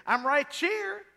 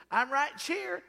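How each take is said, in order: First: Put-on slow, high Virginia drawl of a small boy; Virginia boy accent. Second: Put-on Virginia accent. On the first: Uncle as a little boy in Virginia, a light Virginia accent. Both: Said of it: "That's how they talk in Virginia".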